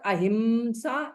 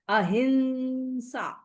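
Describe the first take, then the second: First: A full m sound comes before the h. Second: The vowel is nasalized without a full m. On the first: The speaker calls it wrong. "it will not be pronounced as ma" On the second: The speaker calls it right. "it is ahimsa"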